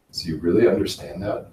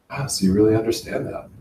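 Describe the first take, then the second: First: Doubtful question, rising at the end. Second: Higher-pitched, affirming take. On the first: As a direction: question whether they really understand. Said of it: "The other is the questioning". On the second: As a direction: say it as if confirming they understand. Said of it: "one is affirming". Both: Shown as a demonstration.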